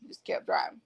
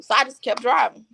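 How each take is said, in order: First: Whispered, trailing away to herself. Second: Said in the usual way. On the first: Real, not acted. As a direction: breathe the words out, no voice. Repeats line, second whispered.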